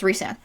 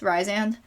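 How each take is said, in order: First: The first syllable does not sound like 'rise'. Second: The first syllable sounds like the word 'rise'. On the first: The speaker calls it right. "it's Rhysand actually" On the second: The speaker calls it wrong. "I say Rise, Rysand"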